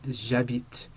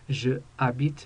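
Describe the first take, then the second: First: The pronoun is blended straight into the verb. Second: The pronoun is said as a separate syllable. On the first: The speaker calls it right. "absolutely no pause between the J apostrophe and the rest of the word" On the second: The speaker calls it wrong. "it's not je habite"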